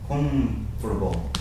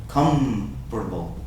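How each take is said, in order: The two takes are said the same way.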